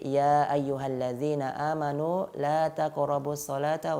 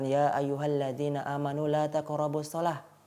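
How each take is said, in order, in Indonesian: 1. Bacaan terus berjalan melewati kata itu tanpa berhenti. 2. Bacaan berhenti pada kata itu dalam bentuk waqaf. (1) "Jadi yang paling bagus adalah dibaca sampai habis" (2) "kalau kita salah wakaf maka kan salah artinya"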